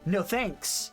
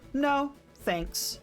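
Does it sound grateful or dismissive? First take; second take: dismissive; grateful. First: It sounds curt and unappreciative. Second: It sounds polite and grateful.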